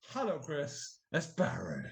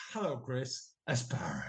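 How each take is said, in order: First: Tapered name. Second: Starts loud, fades into a whisper; loud then whisper. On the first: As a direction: voice dropping away on the name. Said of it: "He tapered his name". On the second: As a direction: begin loud, taper the name away. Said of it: "started off loud and into a whisper". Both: Retold or imitated.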